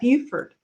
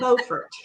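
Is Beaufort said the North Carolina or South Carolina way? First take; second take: South Carolina; North Carolina. First: It is said the South Carolina way. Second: It is said the North Carolina way. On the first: This is how the name is said in South Carolina. "in South Carolina you would pronounce that Beaufort" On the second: This is how the name is said in North Carolina. "North Carolina it's Beaufort"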